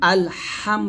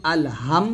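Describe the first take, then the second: First: "আল হাম" with the h from mid-throat, slow; correct throat HA. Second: "আল হাম" with a faulty h, as a mistake to avoid; wrong HAM. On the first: Teacher modelling the Arabic for students, slow correct "আল হাম". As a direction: draw out "হাম" from the middle of the throat. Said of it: "আল হাম বলতে হবে". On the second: Teacher warning students off a mistake, wrong "আল হাম". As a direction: show the mispronounced "হাম" in "আল হাম". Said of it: "আল হাম বলা যাবে না". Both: Shown as a demonstration.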